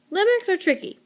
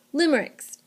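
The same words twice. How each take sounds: First: Limericks said much higher, with a bright falling swoop; sing-song high Limericks; playful limericks. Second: Said in the usual way. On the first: Shown as a demonstration. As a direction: toss out Limericks up high like it's fun to say. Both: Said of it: "they're really fun to say".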